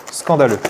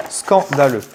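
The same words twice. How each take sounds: First: Said in the usual way. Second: "Scandaleux" split after the first syllable; emphatic syllables. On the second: Real, not acted. Unboxer complaining about missing promo cards, "Scandaleux" broken up emphatically. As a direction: draw out "Scandaleux" in separated chunks for emphasis.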